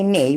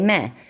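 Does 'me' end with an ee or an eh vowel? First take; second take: ee; eh. First: The word ends with a long ee vowel. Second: The word ends with a short eh vowel. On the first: The speaker calls it wrong. "We don't say me" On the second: The speaker calls it right. "we say meh"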